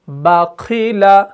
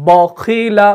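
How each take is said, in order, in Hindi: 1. पहला अक्षर हल्का और बारीक बोला जाता है। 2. पहला अक्षर भारी और मोटा बोला जाता है। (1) "बारीक पढ़ा जाने वाला हरफ है। जैसे हम पढ़ते हैं" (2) "अगर हम इसको मोटा बनाएंगे तो ये कैसा बनेगा?"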